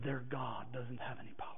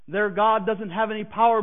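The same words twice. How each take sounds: First: Unvoiced, soft, secretive; hushed whisper. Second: Said in the usual way. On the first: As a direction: breathe it like a dark secret. Coworker's hushed final verdict.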